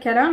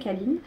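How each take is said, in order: First: The name ends in a nasal vowel. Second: The name ends with a clear n sound. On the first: This is the speaker's own habitual pronunciation. The speaker calls it wrong. "Moi, je l'appelle Kalin" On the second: This is the brand's official pronunciation. The speaker calls it right. "mais c'est Kaline"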